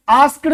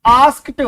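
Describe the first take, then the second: First: "आस्क्ड" said the wrong way, a full "askd" with a voiced d ending; the mistaken "आस्क्ड" students say; wrong pronunciation. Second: "आस्क्ड" ending in a short crisp t, with a slight rise; correct pronunciation. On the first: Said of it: "आस्क्ड नहीं". (गलत उच्चारण "आस्क्ड", अंत में ड के साथ) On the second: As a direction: say "आस्क्ड" as "askt", clipped t at the end. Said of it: "ऐसे बोलोगे आप". (सही उच्चारण "आस्क्ड", अंत में हल्का ट) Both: Shown as a demonstration.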